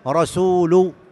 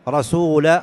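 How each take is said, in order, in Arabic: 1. تنتهي الكلمة بالضمة. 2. تنتهي الكلمة بالفتحة. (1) "الواجب أن يقول رسول" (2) "بالنصب"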